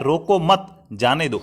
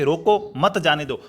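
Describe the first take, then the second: First: रोको मत run together, slow, then जाने दो; slowly group मत with रोको, break before जाने दो; pause after मत. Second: रोको, break, then मत जाने दो as one unit; an order to stop, split after रोको; pause after रोको. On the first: Teacher giving what the listener misheard, slow with pause after मत. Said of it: "आपको सुनाई दे रहा है". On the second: Teacher giving what the speaker meant, pause after रोको. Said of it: "अगर मैं कह रहा हूँ". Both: Shown as a demonstration.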